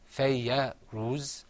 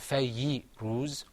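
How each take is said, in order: First: A short a vowel follows the y sound. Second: A short i vowel follows the y sound. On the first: "It's not fayya ruz" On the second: "or fayyi ruz"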